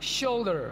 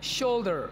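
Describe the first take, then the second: The two takes are said the same way.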